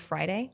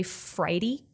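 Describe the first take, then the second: First: Said in the usual way. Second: "Friday" ending in a short -dee; South Texas "Friday", last syllable like "dee"; Friday as "Fridy". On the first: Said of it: "instead of Friday". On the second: Shown as a demonstration. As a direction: say "Friday" with a final ee sound. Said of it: "they say Friday instead of Friday".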